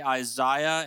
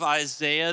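First: It is said the Canadian/UK way. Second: It is said in the speaker's usual American way.

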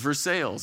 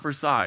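First: The name is said the local Kentucky way. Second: The name is said a different, non-local way. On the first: This is the Kentucky town's name. The speaker calls it right. "there's a Paris in Kentucky, and there's Versailles" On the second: This is not how the town is called. The speaker calls it wrong. "It's not Versailles. It's really different"

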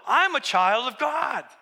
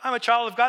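First: It is said with excited amazement. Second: It is said flatly, without wonder.

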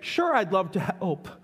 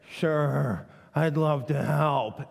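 First: It is said in a willing, sincere tone. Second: It is said in a grudging, reluctant tone. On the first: The speaker is genuinely glad to help. The speaker calls it right. "We can say" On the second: The speaker does not really want to help. The speaker calls it wrong. "we hear the tone and say, mixed message"

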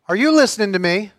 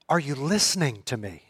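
First: The question sounds stern and scolding. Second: The question sounds earnest and heartfelt. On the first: Is your mind engaged in understanding the words? "you can tell by my tone of voice what I mean by that" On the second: Is your heart engaged enough to act? "let me ask it another way. That says something a little bit different"

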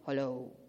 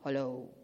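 First: It is said in a deep voice. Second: The same.

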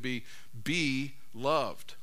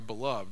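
First: It is said as two words, be loved. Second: It is said as one word, beloved. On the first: Accept and take hold of the love offered. "if you put the emphasis on different syllables, you can say it this way" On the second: You are someone who is loved. "one way to look at the word beloved"

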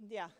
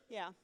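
The two takes are said the same way.

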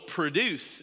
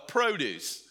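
First: The stress is on the second syllable. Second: The stress is on the first syllable. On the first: It means to bring something about. "or you can use it as a verb" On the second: It names fruit and vegetables that are grown. "you can pronounce it either way. You can use it as a noun"

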